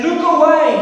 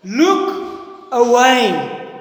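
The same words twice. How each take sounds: First: High, loud urgent cry; screamed warning. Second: Loud, very drawn-out call; screamed warning. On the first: Conscience screaming at David, loud warning shout. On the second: Conscience screaming at David, long slow shout. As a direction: shout it slowly, stretching both words. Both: Acted. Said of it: "to scream at David".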